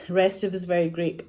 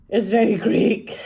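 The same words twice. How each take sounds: First: Said in the usual way. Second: It's very Greek with very stretched, punched high and loud; mock-grand It's very Greek, very louder and higher; emphatic very. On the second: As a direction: lean hard on very and draw it out slowly. Playful emphasis on Greek film.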